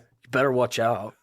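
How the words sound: It sounds menacing, like a threat. The kid is threatening somebody. "he read it as if the kid was threatening somebody"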